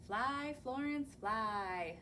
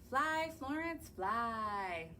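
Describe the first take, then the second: No difference in how they are said.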